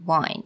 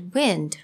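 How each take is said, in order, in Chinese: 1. 它听起来不像表示流动空气的 wind。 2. 它听起来像表示空气流动的那个词。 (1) "但是这个地方呢，我们用wind" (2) "应该是wind，right？像风一样。"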